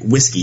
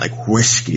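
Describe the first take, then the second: First: The word is said in an ordinary way. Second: The 'whisk' part is heavily emphasized.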